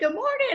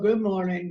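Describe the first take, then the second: First: It is said in a happy, cheerful tone. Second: It is said in a dreary, sad tone. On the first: The speaker is glad to greet the listeners. "It would be kind of a happy, joyful, cheerful tone" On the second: The speaker is unhappy about the situation. "My tone would be kind of a dreary, sad, or, or disgusted tone"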